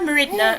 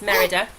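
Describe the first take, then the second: First: An extra n sound comes before the last vowel. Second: No extra n sound comes before the last vowel. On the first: The speaker calls it wrong. "I keep trying to call her Meridna, and I know that's not right" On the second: The speaker calls it right. "It's Merida"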